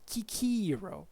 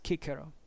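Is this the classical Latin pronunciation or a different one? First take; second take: different; classical. First: It uses a non-classical vowel in the middle syllable. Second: It uses the classical vowel in the middle syllable. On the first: The speaker calls it wrong. "according to this guy, ... the actual pronunciation should have been something like" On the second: The speaker calls it right. "In classical pronunciation, as far as we know"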